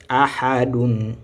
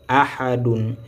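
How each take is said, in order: The two takes are said the same way.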